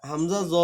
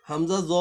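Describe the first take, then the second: No difference in how they are said.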